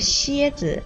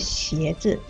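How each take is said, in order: First: The first syllable has a high level tone. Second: The first syllable has a rising tone. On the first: It names a scorpion. The speaker calls it wrong. "你说的是蝎子一声" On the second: It names shoes. The speaker calls it right. "应该是鞋子，鞋是二声"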